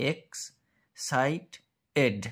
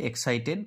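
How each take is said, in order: First: এক্সাইটেড very slowly with long gaps, ex... cite... ed; syllable by syllable. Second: Said in the usual way. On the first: Shown as a demonstration. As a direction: break এক্সাইটেড into three separate pieces. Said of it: "আমরা যদি উচ্চারণে ভাঙি". (এক্সাইটেড ধীরে তিন ভাগে ভেঙে) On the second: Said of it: "এক্সাইটেডটাকে আমরা যদি উচ্চারণে ভাঙি".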